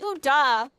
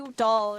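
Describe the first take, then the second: First: The name ends in a vowel sound. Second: The name ends with an L sound. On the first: The speaker calls it right. "It's Uda" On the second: The speaker calls it wrong. "I always say it wrong. I always say Udall"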